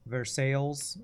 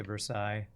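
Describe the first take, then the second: First: Versailles said "ver-SALES"; Americanized pronunciation. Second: Versailles said "ver-SIGH"; French-style pronunciation. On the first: Streamer showing how Americans pronounce it, Versailles as "ver-SALES". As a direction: anglicize Versailles, sounding the Ls to rhyme with "sails". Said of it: "Americans pronounce it". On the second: Streamer giving their own way to say it, Versailles as "ver-SIGH". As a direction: say Versailles with silent Ls, ending like "sigh". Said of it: "I would say Versailles". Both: Shown as a demonstration.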